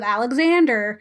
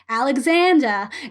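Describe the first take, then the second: First: It is said in an American accent. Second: It is said in a British accent.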